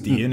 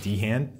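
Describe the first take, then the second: First: The name is said to rhyme with Sheehan. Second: The name is said not rhyming with Sheehan. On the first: The speaker calls it right. "It's probably rhymes with Sheehan" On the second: The speaker calls it wrong. "instead of"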